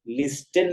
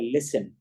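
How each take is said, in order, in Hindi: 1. बीच में t की आवाज़ सुनाई देती है। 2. बीच में कोई t की आवाज़ सुनाई नहीं देती। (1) "लिस्टन नहीं पढ़ा जाएगा" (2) "उसे पढ़ा जाएगा लिसन"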